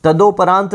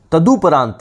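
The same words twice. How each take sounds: First: तदोपरांत with "do" in the middle; mispronounced तदोपरांत. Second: तदुपरांत with "du" in the middle; correct तदुपरांत. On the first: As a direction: say तदोपरांत as ta-DO-parant. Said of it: "तदोपरांत नहीं". (तदोपरांत में 'दो' बोलें) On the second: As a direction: say तदुपरांत as ta-DU-parant. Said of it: "तदुपरांत होगा". (तदुपरांत में 'दु' बोलें) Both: Shown as a demonstration.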